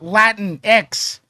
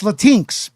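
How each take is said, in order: First: The X is said apart, as a separate letter. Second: The X is joined to the word, like Kleenex. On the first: The speaker calls it wrong. "It's not Latin X" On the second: The speaker calls it right. "The the X is attached to the word Latin"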